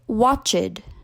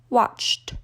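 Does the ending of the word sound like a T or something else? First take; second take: something else; T. First: The ending is not a plain T sound. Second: The ending is a plain T sound. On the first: The speaker calls it wrong. "non-native speakers will say watched, but that's incorrect" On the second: The speaker calls it right. "ends in C H, watched"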